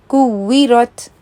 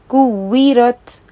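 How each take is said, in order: The two takes are said the same way.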